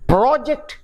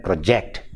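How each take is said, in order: First: PRO-ject, high on PRO; first-syllable stress. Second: Pro-JECT, weight on JECT; second-syllable stress. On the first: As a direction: noun "project" with the first syllable punched. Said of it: "the stress is on the first syllable". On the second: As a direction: verb "project" with a light first syllable. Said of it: "the stress shifts from the first syllable to the second". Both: Shown as a demonstration.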